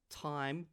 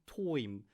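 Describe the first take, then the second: First: Said in the usual way. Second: "toim" with the I turned into OY; Australian OY vowel. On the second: Shown as a demonstration. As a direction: say "toim" to rhyme its vowel with "boy". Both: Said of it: "Turn the I into oi".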